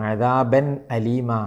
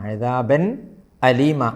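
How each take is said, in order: First: The n is clear and the a starts separately. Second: The same.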